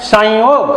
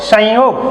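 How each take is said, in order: No difference in how they are said.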